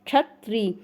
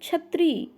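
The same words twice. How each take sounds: First: The word begins with a 'ksh' cluster. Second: The word begins with a plain 'ch' sound. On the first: The speaker calls it right. "जब आप कंठ और मूर्धन्य मिला के बोलते हैं तो इसको छत्री बोलते हैं" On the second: The speaker calls it wrong. "आप इसको कैसे बोलते हैं"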